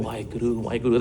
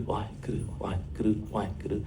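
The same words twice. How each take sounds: First: Chanted, soft, rhythmic "Why Guru, why Guru" imitating his grandson; mild chant. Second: Much softer, half-whispered "Why Guru" chant in rhythm. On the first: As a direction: chant it lightly like a kid playing. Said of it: "he's always going". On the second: Retold or imitated. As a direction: breathe the chant to the ball's beat. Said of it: "He's making that sound".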